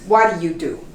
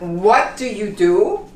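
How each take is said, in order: First: Said fast with the T becoming R-like. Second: Each word is said slowly and clearly. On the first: The speaker calls it right. "when you speak faster" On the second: The speaker calls it wrong. "It's not"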